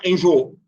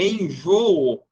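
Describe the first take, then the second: First: The two final o vowels run together. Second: The two final o vowels are said separately. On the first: The speaker calls it wrong. "A gente não fala enjoo" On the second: The speaker calls it right. "É enjoo"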